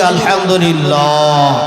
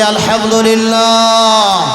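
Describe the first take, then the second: First: It is said moderately loud. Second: It is said much louder.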